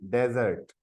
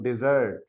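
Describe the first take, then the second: First: डेजर्ट with stress on the first syllable, DEZ-ert; डेजर्ट pronounced like the sandy desert; desert, the noun. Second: डिजर्ट with an i sound and stress at the end, di-ZERT; डिजर्ट pronounced di-ZERT; desert, the verb. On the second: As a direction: say डिजर्ट as di-ZERT, meaning to abandon. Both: Shown as a demonstration. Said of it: "इसको अगर मैं पढ़ूँ डिजर्ट".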